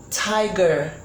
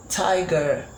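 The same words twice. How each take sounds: The two takes are said the same way.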